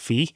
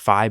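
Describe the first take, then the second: First: The vowel sounds like 'ee'. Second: The vowel sounds like 'eye'. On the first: The speaker believes this is the real name. The speaker calls it right. "but I'm pretty damn sure it's Fee" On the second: Other people say it this way. The speaker calls it wrong. "I hear people pronounce the name as Fi"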